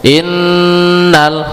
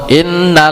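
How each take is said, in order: First: The nasal n is held for two beats. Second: The nasal n is cut short without holding. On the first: The speaker calls it right. "tapi ditahan dulu. dua harokat" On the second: The speaker calls it wrong. "jangan langsung innal, enggak ditahan langsung langsung ditabrak"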